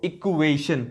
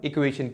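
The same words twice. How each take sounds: First: "equation" slowly drawn out, part by part; word broken down. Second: Said in the usual way. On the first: Shown as a demonstration. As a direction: stretch "equation" to show the equal inside it. ("Equation" को धीरे-धीरे तोड़कर बोलना) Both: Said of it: "क्यों, देखो equation".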